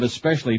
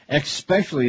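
First: It starts with an 'es' sound. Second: It starts with an 'ex' sound. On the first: The speaker calls it right. "instead of especially" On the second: The speaker calls it wrong. "Especially instead of especially"

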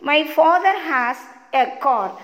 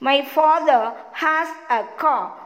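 First: American accent, with the r sounds pronounced. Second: British accent, with the r sounds dropped. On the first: "This is American English accent" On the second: "This is British English accent"

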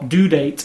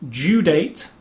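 First: Due is said with an American 'doo' sound. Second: Due is said with a British 'dyoo' sound.

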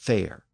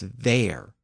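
First: The word begins with a voiceless F sound. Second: The word begins with a voiced V sound. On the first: "not fair" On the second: "he pronounced it as there"

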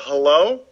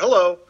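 First: It rises at the end like a question. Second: It falls at the end like a greeting.

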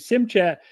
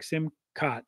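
First: The second syllable sounds like English 'chat'. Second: The second syllable does not sound like 'chat'. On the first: This is how an English reader says it from the spelling. "when I say that word, I say sim chat" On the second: This is how the people who use the word say it. "they pronounce it like simcat"

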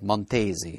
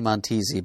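First: The name is said in an Italian-style pronunciation. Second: The name is said in an English-style pronunciation. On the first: "if it's going by the rules of Italian, it's probably like Montesi" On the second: "I used to say Montesi"

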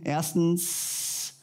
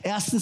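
First: The final s sound is drawn out long. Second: The final s sound is short.

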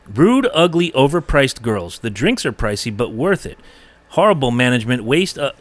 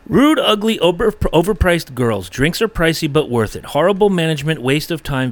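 First: It is read with pauses between phrases. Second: It is read without pauses, in one breath.

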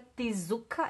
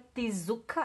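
First: A vowel is inserted between the t and s. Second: A vowel is inserted between the t and s.

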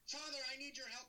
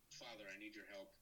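First: It is said loudly, like yelling. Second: It is said quietly and calmly.

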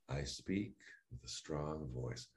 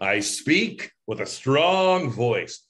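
First: It is said calmly and softly, like a meditation. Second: It is said loudly with exaggerated energy. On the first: "It's almost like a meditation at that point. I just say them" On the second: "we really kind of exaggerated"

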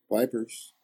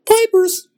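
First: It is said flatly with low energy. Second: It is said loudly with high energy.

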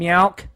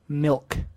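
First: The vowel sounds like 'ow'. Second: The vowel sounds like 'ih'. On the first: The speaker calls it wrong. "and meowk" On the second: The speaker calls it right. "they never say milk"

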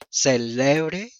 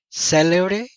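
First: The stress is on the middle syllable. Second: The stress is on the first syllable.

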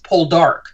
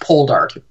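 First: The stress is on the last syllable. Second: The stress is on the first syllable. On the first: The speaker calls it right. "The emphasis is on the last syllable" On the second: The speaker calls it wrong. "not Poldark"

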